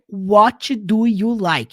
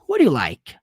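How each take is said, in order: First: Each word is said fully and separately. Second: The words are run together in reduced form. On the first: The speaker calls it wrong. "do jeito que você aprendeu na escola" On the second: The speaker calls it right. "É muito mais comum"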